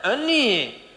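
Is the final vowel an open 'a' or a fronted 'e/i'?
e. The final vowel is shifted toward 'e'. This is how a tribe that cannot say 'a' pronounces it.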